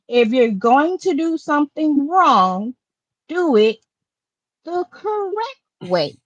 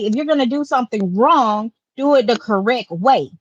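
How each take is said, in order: First: It is said at a slower pace. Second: It is said at a faster pace.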